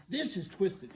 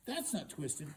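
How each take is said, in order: First: THIS punched loud and high; stress on THIS. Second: "That's not twisted", lightly stressed on THAT'S; dismissive correction. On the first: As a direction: hit the word THIS hard. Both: Acted. Hero contrasts two kinds of twisted.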